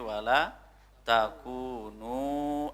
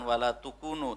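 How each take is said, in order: First: The second word begins with a 'ta' sound. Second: The second word begins with a 'tu' sound. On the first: The speaker calls it right. "tetapi wala takunu" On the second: The speaker calls it wrong. "bukan wala tukunu"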